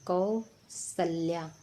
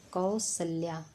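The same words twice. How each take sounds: First: कौसल्या drawn out syllable by syllable; slow dictation. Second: Said in the usual way. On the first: Shown as a demonstration. Teacher checking spellings, slowly saying कौसल्या. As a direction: stretch कौसल्या out for the class. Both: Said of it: "तो देखिए".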